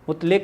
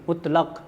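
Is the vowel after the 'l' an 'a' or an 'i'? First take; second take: i; a. First: The vowel after the 'l' is 'i'. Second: The vowel after the 'l' is 'a'. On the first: The speaker calls it wrong. "मुतलिक नहीं" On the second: The speaker calls it right. "लाम पे ज़बर"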